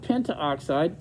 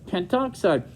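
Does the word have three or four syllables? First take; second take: four; three. First: An extra vowel comes before oxide. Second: The vowel before oxide is dropped. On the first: The speaker calls it wrong. "Not pentaoxide" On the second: The speaker calls it right.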